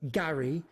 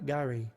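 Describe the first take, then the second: First: "Gary" with a hard, firm G. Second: "Gary" with a softened, loose G; soft G in Gary. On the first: Teacher shows the G to avoid, hard G in Gary. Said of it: "not a G". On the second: Teacher shows students a soft G in Gary. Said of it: "a soft G". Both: Shown as a demonstration.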